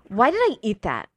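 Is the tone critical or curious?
critical. It sounds harsh and self-critical.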